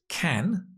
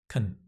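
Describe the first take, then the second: First: The word is said in full with a clear vowel. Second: The word is reduced with a weak vowel. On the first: "The strong form is can" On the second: "the weak, unstressed form is can"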